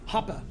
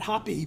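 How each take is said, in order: First: The name ends in an 'uh' sound. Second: The name ends in an 'ee' sound. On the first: This is how the name's owner says it. "the way he pronounces it ... German way" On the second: This is the Americanized form of the name. "that's the Americanized way"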